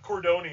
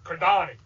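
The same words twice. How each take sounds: First: The name is said with an American accent. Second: The name is said with an Italian accent. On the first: The speaker calls it wrong. "the least Italian pronunciation" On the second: The speaker calls it right. "and he goes"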